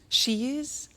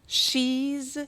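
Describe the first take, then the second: First: It is said as two full words. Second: It is said as one contracted syllable.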